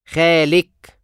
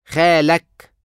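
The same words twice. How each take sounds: First: خالك said khalik, ending in -ik; feminine you form. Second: خالك said khalak, ending in -ak; masculine you form. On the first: Teacher drills the feminine form of your uncle. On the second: Teacher drills the masculine form of your uncle. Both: Shown as a demonstration.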